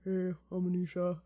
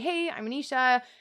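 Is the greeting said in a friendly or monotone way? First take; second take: monotone; friendly. First: It is said low and monotone. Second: It is said in a friendly, lively way.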